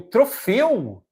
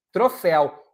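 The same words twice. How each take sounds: First: Troféu? with a closed e, like tro-FÊU, slow and rising like a question; wrong pronunciation. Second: Troféu with an open é, like tro-FÉU, a plain falling statement; correct pronunciation. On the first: Teacher to students, mock-asking about the wrong closed-e troféu. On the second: Teacher to students, modelling the correct open-é troféu. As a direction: say Troféu with the open é, firm and matter-of-fact. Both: Shown as a demonstration. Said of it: "Não".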